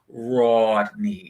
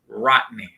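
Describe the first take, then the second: First: The name is said in a careful formal style. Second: The name is said in a casual street style. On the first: This is how the name's owner wants it said. The speaker calls it right. "he will absolutely correct you and let you know his name is Rodney" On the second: This is how the neighborhood usually says it. The speaker calls it wrong.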